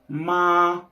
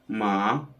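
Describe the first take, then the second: First: The pitch stays high and level. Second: The pitch stays low. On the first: "that's the first tone, that's the highest tone" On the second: "the third tone, which is the low one"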